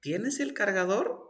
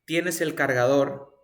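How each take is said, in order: First: "¿Tienes el cargador?" asked with pitch climbing high; question intonation. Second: "¿Tienes el cargador?" said as a statement, without a question lift; statement intonation. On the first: Teacher contrasts two intonations, this one asking. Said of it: "estoy preguntando". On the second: Teacher contrasts two intonations, this one affirming. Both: Shown as a demonstration.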